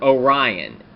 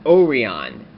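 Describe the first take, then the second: First: Orion said "oh-RYE-un"; American pronunciation. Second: Orion said "oh-ree-on"; Japanese-show pronunciation. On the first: Offering viewers the American name, Orion said "oh-RYE-un". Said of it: "in America it would be pronounced Orion". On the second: Explaining the character's name to viewers, Orion said "oh-ree-on". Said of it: "it was pronounced Orion in Kyuranger". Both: Shown as a demonstration.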